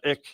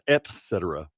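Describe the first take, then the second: First: The first word ends in a K sound. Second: The first word ends in a T sound. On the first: The speaker calls it wrong. "not with a K" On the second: The speaker calls it right. "with a T"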